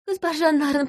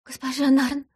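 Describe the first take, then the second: First: Higher still, more urgent second call; desperate plea. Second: High, imploring first call of her name; begging plea. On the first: Woman on her knees begs harder, desperate. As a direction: push the plea up a notch, near tears. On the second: Woman on her knees first begs the investigator. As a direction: reach out with the voice, pleading. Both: Acted. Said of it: "протянув ко мне руки, проговорила".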